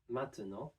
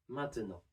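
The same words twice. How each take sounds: Both takes have the same delivery.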